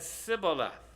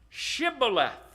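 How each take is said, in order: First: The word begins with a plain s sound. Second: The word begins with an sh sound. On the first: This marks the speaker as from the other tribe. The speaker calls it wrong. "He couldn't put that H in there" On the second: This is the pronunciation the guards demanded. The speaker calls it right. "say now, Shibboleth"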